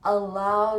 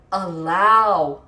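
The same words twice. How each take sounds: First: Said in the usual way. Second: "Allow" drawn out and much louder; "Allow" alone, loud and stretched; emphasis on allow. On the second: Shown as a demonstration. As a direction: belt out "Allow" as one long, emphatic word. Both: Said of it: "emphasis on the word allow".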